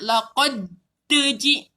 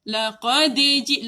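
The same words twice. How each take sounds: First: The d is released with a heavy, forceful bounce. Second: The d is released with a light, quick bounce. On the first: The speaker calls it wrong. "Tak nak" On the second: The speaker calls it right. "tolak lembut-lembut je... Cepat"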